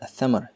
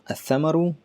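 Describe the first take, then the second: First: The word stops on its final consonant. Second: The word ends with its full case ending.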